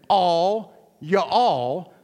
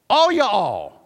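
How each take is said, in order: First: The words are said apart, with a break. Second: The words run together as one word. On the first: The speaker calls it wrong. "like it's two words" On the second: The speaker calls it right. "It's one word"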